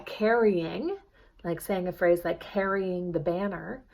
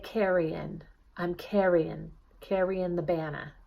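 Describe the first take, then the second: First: Said in the usual way. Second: Carrying said as carryin', ending on a plain N; dropped final G. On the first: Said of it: "instead of going". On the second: Shown as a demonstration. Coach showing the newsie dropped G on carrying. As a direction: drop the G at the end of carrying. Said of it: "drop my final G sound".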